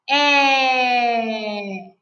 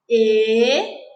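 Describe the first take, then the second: First: The vowel is said with an open sound. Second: The vowel is said with a closed sound.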